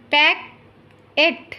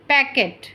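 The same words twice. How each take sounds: First: Slow, stretched packet; slow careful model word. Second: Said in the usual way. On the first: Shown as a demonstration. Teacher modelling packet slowly for listening pupils. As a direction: draw out packet for the class. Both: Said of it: "listen to your teacher say the following words".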